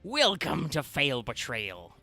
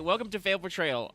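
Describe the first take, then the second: First: It is said in a gruff put-on pirate voice. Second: It is said in the speaker's ordinary voice.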